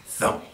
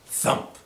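No difference in how they are said.

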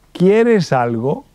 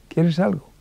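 First: Slow, higher ¿Quieres algo?, rising at the end; asking the question. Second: Said in the usual way. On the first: Shown as a demonstration. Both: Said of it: "la última pregunta".

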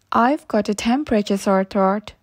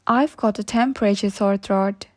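Both takes have the same delivery.

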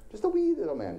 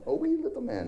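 First: Put-on sung children's song. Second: Very high, jokey Irish leprechaun lilt; a cartoon Irish leprechaun, hammed up for a laugh; Irish leprechaun accent. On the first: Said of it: "that's the way we sing it". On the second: Preacher mocks the church song in an Irish leprechaun accent. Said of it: "That's terrible. Probably racist".

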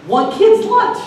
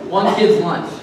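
First: High, disbelieving question; incredulous. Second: Said in the usual way. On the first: Acted. Preacher doubting the story to his congregation, incredulous. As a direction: repeat it in squeaky disbelief, much higher.

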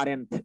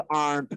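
First: "aren't" wrongly split into "aar-ent"; two-syllable aren't. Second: "aren't" run together as one long syllable, "aant". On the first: Teacher warning against a misreading, "aren't" in two syllables. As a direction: mispronounce "aren't" with an extra vowel, "aar-ent". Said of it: "এরকম উচ্চারণ করবেন না". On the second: Teacher showing the correct word, "aren't" in one syllable. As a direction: say "aren't" as a single beat, no second vowel. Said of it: "শব্দটার উচ্চারণ কিন্তু aren't করেছি". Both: Shown as a demonstration.

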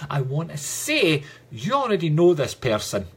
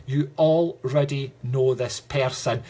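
First: Said in the usual way. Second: Already drawn out and slow, leaning on it; slow the line and lean hard on already; stress on already. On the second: Shown as a demonstration. Medium insisting to the viewer that she knows him, slow stress on already.

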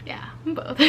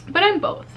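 First: Much softer, breathed secret confession; whispered repeat of the confession; whispered aside. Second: Much higher, perky little confession; higher-pitched playful admission; bright admission. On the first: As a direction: drop to a whisper as if confiding. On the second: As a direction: pop it up high like a cheeky reveal. Admits being both kinds. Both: Real, not acted.

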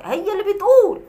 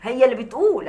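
First: بتقول said higher and pointed; mocking emphasis on بتقول; pointed repeat. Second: Said in the usual way. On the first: Shown as a demonstration. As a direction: lift بتقول up to hammer it home. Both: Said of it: "انا ما بقولش حاجه".

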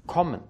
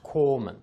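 First: "kommen" with a short, closed o. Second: "komen" with a long, open o; wrong long o. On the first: Teacher shows learners "kommen" with a short o. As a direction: clip the o in "kommen" before the double m. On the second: Teacher shows learners the wrong "komen". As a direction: stretch the o in "komen" to show the error. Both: Shown as a demonstration. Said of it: "Es ist nicht komen".

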